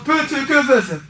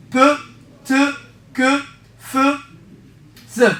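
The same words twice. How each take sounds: First: The sounds joined in one unbroken string; run-together mnemonic. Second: One sound at a time, long pauses between; syllable-by-syllable drill. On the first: Teacher giving a memory trick, syllables run together. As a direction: rattle the syllables off as one word. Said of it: "ودوكا نقول لك بو تو كو فو ثو". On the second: Teacher drilling the memory trick, each sound set apart. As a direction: isolate each syllable for learners to copy. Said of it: "عاود معايا". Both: Shown as a demonstration.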